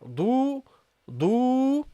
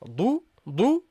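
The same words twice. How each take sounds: First: The vowel is held long. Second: The vowel is short. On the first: "with the wow" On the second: "without the wow"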